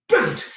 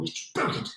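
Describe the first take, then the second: First: High, delighted exclamation; excited. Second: Hushed, awed whisper. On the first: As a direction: burst out with glee. Repeats aloud, delighted. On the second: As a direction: say it under your breath, amazed. Awed aside again. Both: Acted.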